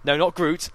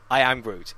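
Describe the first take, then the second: First: Said in the usual way. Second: Full line I am Groot, not just Groot; correcting the line. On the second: Shown as a demonstration. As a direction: say all three words, I am Groot. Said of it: "never just Groot".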